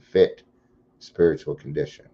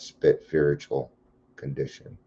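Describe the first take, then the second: First: Said slowly, with a clear 'fit' sound. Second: Run together, so the first word sounds 'spit'. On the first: The speaker calls it right. "I always have to say that slower" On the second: The speaker calls it wrong. "or it comes out spit spiritual condition"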